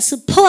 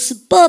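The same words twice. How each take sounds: First: The p is aspirated with a puff of air. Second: The p is tense with no puff of air. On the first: The speaker calls it wrong. "스퍼 아니고" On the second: The speaker calls it right. "S 다음에 P 발음은 뿌 발음 된 소리 되게 하면 됩니다"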